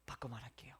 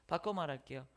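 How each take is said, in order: First: Whispered aside. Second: Said in the usual way. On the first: Real, not acted.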